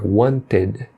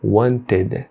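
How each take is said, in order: First: The ending is a reduced, in-between vowel sound. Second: The same.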